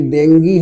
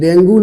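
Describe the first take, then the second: First: The word ends with an 'ee' vowel. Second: The word ends with an 'oo' vowel. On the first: The speaker calls it right. "ये डेंगी है, सही उच्चारण" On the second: The speaker calls it wrong. "ये डेंगू नहीं है"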